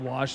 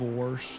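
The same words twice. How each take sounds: First: "wash" with a clear AH, no R; city pronunciation. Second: "wash" said as "worsh", with an added R; country pronunciation. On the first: Streamer showing etiquette lessons, clean "wash". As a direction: say "wash" cleanly, without twang. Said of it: "instead of wash". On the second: Streamer showing the old twang, "wash" as "worsh". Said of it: "Had to take etiquette". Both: Shown as a demonstration.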